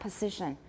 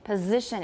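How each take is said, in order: First: The middle s is a voiceless s sound. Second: The middle s is a voiced z sound. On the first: The speaker calls it wrong. "It's not position" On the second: The speaker calls it right. "那个 S 到底是 voice 还是 voiceless? ... 那个 s 念 z"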